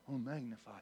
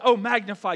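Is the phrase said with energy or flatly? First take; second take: flatly; energy. First: It is said quietly with flat energy. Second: It is said loudly with lively energy. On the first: The speaker calls it wrong. "you don't say" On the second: The speaker calls it right. "when the Bible says"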